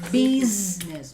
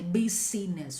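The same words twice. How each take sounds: First: No vowel sounds in the middle. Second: An extra vowel sounds in the middle. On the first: The speaker calls it right. "We say business. Biz and ness. No e in the middle" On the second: The speaker calls it wrong. "We don't say business"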